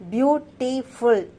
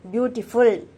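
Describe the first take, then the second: First: "beautiful" slowly split as beau-ti-ful; broken into syllables. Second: Said in the usual way. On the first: Shown as a demonstration. Teacher showing students how syllables are counted, "beautiful" syllable by syllable. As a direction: pause slightly between each syllable of "beautiful". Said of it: "That is syllable. That is how we pronounce each time". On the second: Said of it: "That is how we pronounce".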